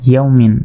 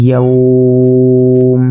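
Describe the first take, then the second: First: Said in the usual way. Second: "ইয়াউম" stretched on one level note; elongated waqf. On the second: Shown as a demonstration. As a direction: hold the "au" of "ইয়াউম" very long, closing on m. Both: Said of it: "ওয়াকফ করলে".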